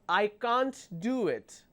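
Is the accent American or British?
British. It is said in a British accent.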